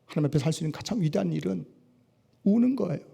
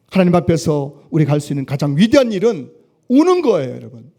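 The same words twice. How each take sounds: First: Soft and quick. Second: Emphatic declaration. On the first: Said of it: "phrase repeated from 50". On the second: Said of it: "phrase repeated at 63". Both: Acted.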